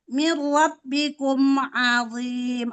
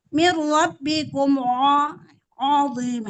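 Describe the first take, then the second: First: The first vowel of azim sounds light. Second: The first vowel of azim sounds heavy. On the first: The speaker calls it right. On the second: The speaker calls it wrong.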